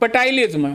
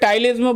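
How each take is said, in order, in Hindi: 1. यह शब्द बोले जाने वाले P से शुरू होता है। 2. यह शब्द T से शुरू होता है, P के बिना। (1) "पटाइलिज्म बोलने में मेरे को थोड़ा ज्यादा मजा आता है" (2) "वैसे टाइलिज्म बोलते हैं"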